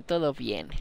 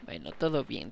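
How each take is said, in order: First: Hushed whispered todo bien. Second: Said in the usual way. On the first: Real, not acted. Repeats phrase, then whispers it.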